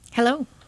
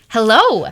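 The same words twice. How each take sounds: First: It is said with low energy. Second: It is said with high energy.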